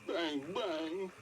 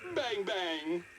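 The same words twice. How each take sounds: First: It is said in a sad tone. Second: It is said in a happy tone.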